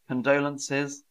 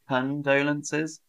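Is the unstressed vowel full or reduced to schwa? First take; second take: schwa; schwa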